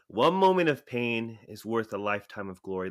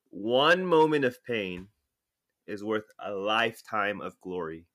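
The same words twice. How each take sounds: First: It is read at normal speed. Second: It is read slowly.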